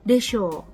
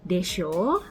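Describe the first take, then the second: First: The pitch falls at the end. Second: The pitch rises at the end. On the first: The speaker supposes it must be so. "Pasti begitu" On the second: The speaker seeks agreement, like 'right?'. "ya kan"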